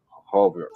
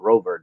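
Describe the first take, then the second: First: The word begins with an H sound. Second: The word begins with an R sound. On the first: "They pronounce it with an H sound" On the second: "any word that starts in R"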